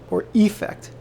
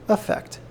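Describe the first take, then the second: First: It begins with an ee vowel sound. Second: It begins with an uh vowel sound. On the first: "an E sound at the beginning" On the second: "an uh sound at the beginning"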